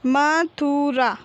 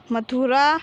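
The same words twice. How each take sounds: First: Slow, stretched म, थु, रा, falling at the end; drawn-out teaching reading of Mathura; syllable by syllable. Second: Said in the usual way. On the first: Shown as a demonstration. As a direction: sound out Mathura piece by piece. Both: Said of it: "तो हम इस प्रकार पढ़ेंगे".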